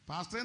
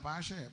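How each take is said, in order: First: The word is said in full, with every syllable. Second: The word is clipped, with syllables dropped. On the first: "പാസ്റ്ററെ എന്നും പറയത്തില്ല" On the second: "പാഷേ പ്രാർത്ഥിക്കണം"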